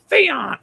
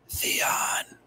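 First: It is said in a croaking raven voice. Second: It is said as a soft, rustling whisper.

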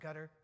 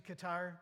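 First: Qatar is said in the newer pronunciation. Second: Qatar is said in the older pronunciation. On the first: This is how it is said now. "but now we pronounce it Qatar" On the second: This is how it was said before. "Used to be Qatar"

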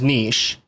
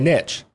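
First: It is said with the French pronunciation. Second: It is said with the American pronunciation. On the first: This follows the word's original French root. "the official way from the root word is niche" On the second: This is how the word is made American. "doing what we do in America, we make things our own... and we say niche"

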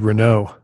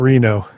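First: The name is said like the car brand Renault. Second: The name is said the usual way, Reno. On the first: This is how the navigation app says the name. The speaker calls it wrong. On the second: This is how the city name is normally said. The speaker calls it right.

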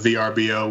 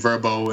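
First: The name is spelled out letter by letter. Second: The name is said as a single word. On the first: This is the old way to say the name. "which it was formerly known as" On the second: This is the current way to say the name. "which is new pronunciation"

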